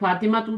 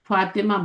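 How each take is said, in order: First: The name ends with an added 'tu' syllable. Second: The name ends on an open 'a' vowel. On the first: The speaker calls it wrong. "फातिमा तू तो नहीं बोलते ना" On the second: The speaker calls it right. "फातिमा बोलते हैं"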